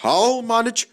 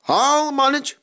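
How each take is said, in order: First: Wheezing. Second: Higher, louder strained wheeze; wheezing, straining higher. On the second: Skarloey to his driver, wheezing and straining. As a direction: push through the effort. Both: A narrator's reading. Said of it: "he wheezed".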